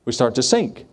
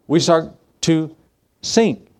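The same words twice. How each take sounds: First: Said in the usual way. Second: Slow build, "sink" pitched up; drawn-out sink. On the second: Shown as a demonstration. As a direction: stretch out "We start to" then lift "sink".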